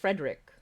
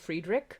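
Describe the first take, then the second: First: The name is said the plain English way. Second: The name is said with a German sound. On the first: "you would pronounce it as Frederick with how it's spelled" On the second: "but I said Friedrich"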